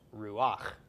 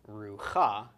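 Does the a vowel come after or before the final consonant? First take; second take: before; after. First: The a vowel comes before the final consonant. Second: The a vowel comes after the final consonant. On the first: The speaker calls it right. "but instead pronounced ruach" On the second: The speaker calls it wrong. "this is not pronounced rucha"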